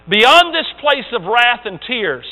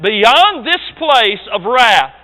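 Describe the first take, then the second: First: Measured, solemn first reading; slow poem reading. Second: Each word drawn out slowly and louder; slow emphatic repeat. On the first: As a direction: let the line roll out slowly. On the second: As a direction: lean hard on Beyond, very slow. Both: Shown as a demonstration. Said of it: "You get that?".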